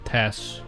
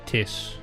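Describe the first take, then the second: First: The name has a plain 'e' vowel. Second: The vowel sounds like 'i', Kiwi style.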